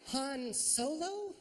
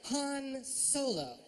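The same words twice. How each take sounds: First: Slow, high disbelieving question; incredulous. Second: Slow, dry restatement; flat statement. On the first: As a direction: drag it out in disbelief. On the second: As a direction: state it back deadpan. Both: Shown as a demonstration. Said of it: "Here's another one".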